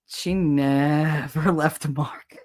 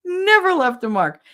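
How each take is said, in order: First: "never" stretched slowly, low; drawn-out NEVER. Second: "never" punched high, quicker; emphatic NEVER. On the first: Telling of grandmother's sly pinches, stretched "never". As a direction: draw out "never" with amusement. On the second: Insisting grandmother's pinches left nothing, high emphatic "never". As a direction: hit "never" high, then fall away. Repeats it emphatically after laughing. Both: Real, not acted.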